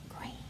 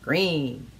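First: It is whispered. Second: It is spoken in a normal voice.

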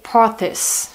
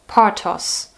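First: The name is pronounced the English way. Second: The name is pronounced the German way. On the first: "If I pronounced it English, I would say" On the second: "I pronounce it German now"

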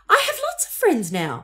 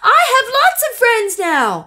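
First: It is said at a normal volume. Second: It is said very loudly.

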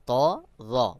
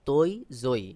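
First: The letter names end in an 'aa' vowel. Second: The letter names end in an 'oi' vowel. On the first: The speaker calls it right. "সহিহ উচ্চারণ হলো তা রা" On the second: The speaker calls it wrong. "অনেকে বলে তৈ জই, এটা সহিহ উচ্চারণ নয়"

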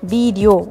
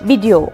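First: The first syllable is drawn out long. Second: The second syllable is drawn out long. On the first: The speaker calls it wrong. "Week வந்து நம்ம அப்படியே track பண்ணி கொண்டு போகிற மாதிரி இருக்கும்" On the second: The speaker calls it right. "இங்கே டி தான் நம்ம ட்ராக் பண்ணணும்"

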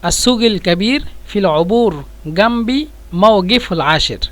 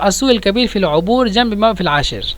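First: The 'q' sound is pronounced as a 'g'. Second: The 'q' sound is dropped as a glottal stop. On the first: "কফকে দুইভাবে ব্যবহার করে" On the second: "কফকে যদি আমরা হামজা ব্যবহার করি"

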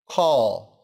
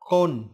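First: It is said with English sounds, ending in l. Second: It is said with Vietnamese sounds, like a Vietnamese word. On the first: The speaker calls it right. "Từ này kết thúc bằng âm o" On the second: The speaker calls it wrong. "không đọc là call trong tiếng Việt đâu"

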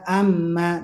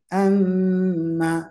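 First: The doubled m is held only briefly. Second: The doubled m is held twice as long. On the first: The speaker calls it wrong. "Tidak amma" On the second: The speaker calls it right. "tapi amma"

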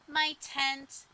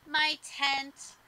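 No difference in how they are said.

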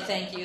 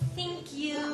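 First: It is said in a normal, full voice. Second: It is said in a small, minimized voice. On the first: "they don't say thank you" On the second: "They're like these minimized, tiny version"

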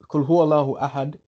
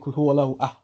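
First: The last word is said in full. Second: The last word is cut off before its end.

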